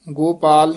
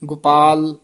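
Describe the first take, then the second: First: ਗੋਪਾਲ with a full long o, gopaal; wrong long o. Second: ਗੋਪਾਲ said as gupaal, quick short u; first vowel of ਗੋਪਾਲ a short u; with aunkar. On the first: Teacher showing the pupil the wrong ਗੋਪਾਲ. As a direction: stretch the o in ਗੋਪਾਲ, the mistake. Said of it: "ਗੋਪਾਲ ਨਹੀਂ ਕਹਿਣਾ". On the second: Teacher modelling ਗੋਪਾਲ for the pupil, with aunkar. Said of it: "ਔਂਕੜ ਨਾਲ ਉਚਾਰਨ ਕਰਨਾ ਹੈ ਛੇਤੀ". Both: Shown as a demonstration.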